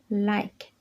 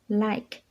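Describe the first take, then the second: The two takes are said the same way.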